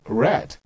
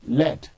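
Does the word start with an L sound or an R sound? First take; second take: R sound; L sound. First: The word starts with an R sound. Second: The word starts with an L sound. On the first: "you have to learn red if you want to speak good English" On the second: "My mother calls it R E D"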